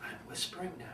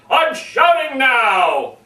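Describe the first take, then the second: First: Very soft, voiceless whisper. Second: Loud, drawn-out demonstration shout. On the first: Speaker mocking forced vocal variety, exaggerated whisper. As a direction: drop right down to a tiny whisper. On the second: Speaker mocking forced vocal variety, exaggerated shout. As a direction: shout it high and slow, stretching the last word. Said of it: "vocal variety quite often is translated to things like". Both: Shown as a demonstration.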